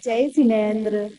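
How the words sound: The greeting sounds warm and affectionate. The person greets the other with goodwill despite the quarrel. The speaker calls it right. "बड़े प्यार से कहना"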